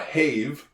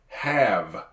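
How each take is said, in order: First: The vowel is a long A sound. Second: The vowel is a short A sound. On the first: The speaker calls it wrong. "the silent E at the end of a word would make the other vowel sound like itself. But it doesn't. This is not a have" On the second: The speaker calls it right. "It's a short A here"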